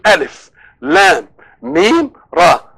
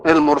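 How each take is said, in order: First: Each letter is spoken separately by its name. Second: The letters are blended into one short word. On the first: The letters are read as letter names. "لما بنقول الف لام ميم راء" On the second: The letters are read as their sounds, forming a word. "لو نطقناها مسميات حروف تبقى ايه؟"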